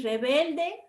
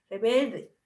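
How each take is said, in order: First: Said in the usual way. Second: "rebelde" with the L turned to an R; Caribbean L-R swap. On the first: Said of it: "En vez de decir rebelde". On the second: Shown as a demonstration. Teacher shows students how Caribbean speakers confuse L and R, swapped sounds. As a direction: say "rebelde" with R in place of L. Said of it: "ellos dicen".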